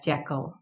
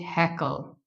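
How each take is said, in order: First: The word begins with a J sound. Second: The word begins with an H sound. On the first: The speaker calls it wrong. "we do not pronounce this word as jackal" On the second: The speaker calls it right. "We say it heckle"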